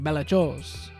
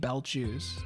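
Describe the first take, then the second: First: The word is pronounced in a silly, fancy way. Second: The word is pronounced plainly, like two words. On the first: "I could go like silly with it" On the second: "it might be belt shoes"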